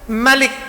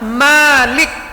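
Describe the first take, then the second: First: The first vowel is kept short. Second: The first vowel is held long. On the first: The word is read with three letters. "Kalau mimnya nggak pakai alif" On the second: The word is read with four letters. "Kalau dibaca mimnya panjang"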